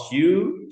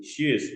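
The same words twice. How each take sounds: First: "shoe" ending on the open vowel, no Z; singular "shoe", nothing after the vowel; no Z sound. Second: "shoes" closed with a voiced Z; audible final Z. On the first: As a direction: say "shoe" raised and clear, without a final Z. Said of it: "tidak ada Z dalam shoe". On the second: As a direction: say "shoes" so the plural Z is heard. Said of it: "Z-nya kedengeran ketika dia jadi plural". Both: Shown as a demonstration.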